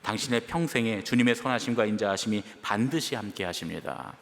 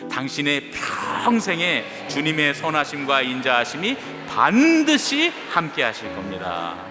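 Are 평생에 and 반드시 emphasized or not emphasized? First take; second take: not emphasized; emphasized. First: 평생에 and 반드시 get no special emphasis. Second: 평생에 and 반드시 are said with strong emphasis.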